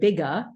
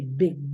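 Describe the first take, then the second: First: An extra uh vowel follows the final g. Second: The word ends cleanly on the g sound. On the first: The speaker calls it wrong. "I don't say bigga" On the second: The speaker calls it right. "I say big"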